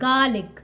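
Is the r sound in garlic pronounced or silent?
silent. The r sound after the vowel is silent. "we do not need to pronounce mid R. So just call it garlic"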